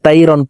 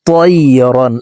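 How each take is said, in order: First: The first consonant is thin and light. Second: The first consonant is thick and heavy. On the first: The speaker calls it wrong. "এখানে তাইরন পড়া যাবে না" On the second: The speaker calls it right. "তকে মোটা করে উচ্চারণ করব"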